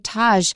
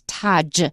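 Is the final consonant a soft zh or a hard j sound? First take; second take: soft zh; hard j. First: The final consonant is a soft zh sound. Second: The final consonant is a hard j sound. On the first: It is made to sound foreign and fancy. The speaker calls it wrong. "It has to be fancy, and they say Taj" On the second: It matches the original language. The speaker calls it right. "in Hindi, it's Taj"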